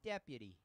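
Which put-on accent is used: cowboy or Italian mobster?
Italian mobster. It is said in an Italian mobster accent. The speaker calls it wrong. "I don't know why I went Italian mobster for that"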